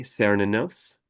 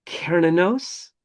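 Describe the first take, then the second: First: Cernunnos starting with an S sound; soft C pronunciation. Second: Cernunnos starting with a hard K, drawn out; slow, high-pitched Cernunnos with a K sound; hard K pronunciation. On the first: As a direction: say Cernunnos as SER-nun-nos. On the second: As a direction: say Cernunnos as KER-nun-nos. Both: Shown as a demonstration. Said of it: "People also say Cernunnos".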